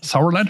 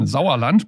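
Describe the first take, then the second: First: The name is said with English pronunciation. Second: The name is said with German pronunciation. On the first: "but I think it's Sauerland" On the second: "But I say in German"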